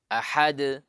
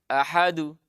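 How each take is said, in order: First: The final bounce has no vowel coloring. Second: The final bounce leans toward a u vowel. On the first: The speaker calls it right. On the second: The speaker calls it wrong.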